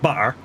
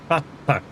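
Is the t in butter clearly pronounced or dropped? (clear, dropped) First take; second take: dropped; clear. First: The t sounds are dropped or glottalized. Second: The t sounds are clearly pronounced. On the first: The speaker calls it wrong. "not butter" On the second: The speaker calls it right. "Got two T's in it. Butter"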